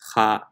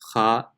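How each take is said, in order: First: The sound is thin, with an unrounded mouth. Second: The same.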